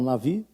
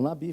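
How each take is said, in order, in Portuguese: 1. A consoante do meio é um som de V. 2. A consoante do meio é um som de B. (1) "falam Navi" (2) "eles na verdade não falam Nabi"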